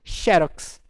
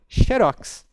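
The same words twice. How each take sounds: First: It is said the way Rio de Janeiro says it. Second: It is said the way Santa Catarina says it. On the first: This is how speakers in Rio de Janeiro say it. "No Rio de Janeiro eu sei que são Xerox" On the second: This is how speakers in Santa Catarina say it. "em Santa Catarina, Xerox"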